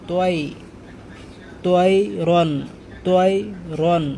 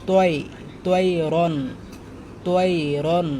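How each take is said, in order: No difference in how they are said.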